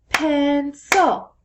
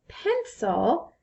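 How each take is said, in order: First: "pencil" split into two loud, even beats; syllable by syllable. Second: Said in the usual way. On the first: Shown as a demonstration. Teacher showing children how to clap syllables, "pencil" in two loud beats. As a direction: punch out both syllables of "pencil". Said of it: "clap it at the same time". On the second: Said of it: "if I were to say the word".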